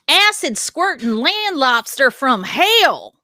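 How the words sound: It is said in a heavy Southern accent.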